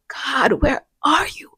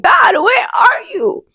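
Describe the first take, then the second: First: Soft, breathy whispered cry; whispered plea. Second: Crying out to God. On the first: Alone, still asking God where he is, hushed whisper. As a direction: whisper it like a broken prayer. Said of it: "I still be like". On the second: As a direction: cry it out, desperate for an answer. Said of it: "I find myself sometimes just crying, like". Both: Retold or imitated.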